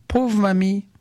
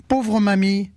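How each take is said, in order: First: Put-on high child's voice exclaiming in pity; child's cry. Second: Put-on high, bright child's exclamation of pity; child's cry. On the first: (voix d'enfant aiguë pleine de pitié) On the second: (voix d'enfant aiguë qui s'écrie avec pitié) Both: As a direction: cry out like a kind little boy. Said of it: "Petit Pierre s'écrie".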